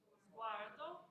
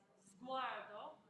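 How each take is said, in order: First: It begins with a buzzing z sound. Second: It begins with a buzzing z sound.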